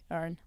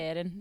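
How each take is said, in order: First: "Earn" as one syllable, the I dropped; Northern Irish pronunciation. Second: Said in the usual way. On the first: Shown as a demonstration. Showing how dad says her name, "Earn" with no middle vowel. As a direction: run "Earn" together, Northern Irish style. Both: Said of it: "they miss out the I".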